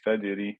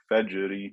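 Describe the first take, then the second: First: The j sound is soft and weak. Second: The j sound is abrupt and strong. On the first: The speaker calls it wrong. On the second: The speaker calls it right.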